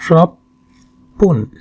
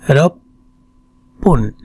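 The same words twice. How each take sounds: No difference in how they are said.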